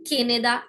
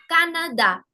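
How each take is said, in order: First: The a vowels are not open 'ah' sounds. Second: Each a is an open 'ah' vowel. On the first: The speaker calls it wrong. "never will it be" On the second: The speaker calls it right. "the sound is A"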